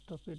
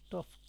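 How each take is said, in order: First: The ending is said as an extra syllable. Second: The ending joins the word with no vowel. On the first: This is the old way of saying it. The speaker calls it wrong. "স্টপেড করতাম স্টপেড" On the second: This is the modern way of saying it. The speaker calls it right. "এখন স্টফড"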